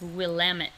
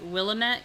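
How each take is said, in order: First: It is pronounced the way locals say it. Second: It is pronounced the way outsiders say it. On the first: The speaker is from the area. The speaker calls it right. "I'll give you guys the inside scoop. It's Willamette" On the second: The speaker is not from the area. The speaker calls it wrong. "People not from Oregon will always pronounce it Willamette"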